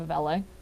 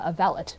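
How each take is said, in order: First: The word is pronounced in the French way. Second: The word is pronounced in an anglicized way. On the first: "instead of" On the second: "refusal to pronounce anything in the French manner"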